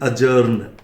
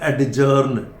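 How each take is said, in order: First: No d sound comes before the j. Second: A clear d sound comes before the j. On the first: The speaker calls it right. "This is अजर्न" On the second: The speaker calls it wrong. "कुछ लोग ये डी के चक्कर में से बोलते हैं"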